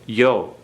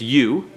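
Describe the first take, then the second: First: The syllable ends in an 'oh' vowel. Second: The syllable ends in an 'oo' vowel. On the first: The speaker calls it wrong. "not yo. I mispronounced that" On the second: The speaker calls it right. "it's you"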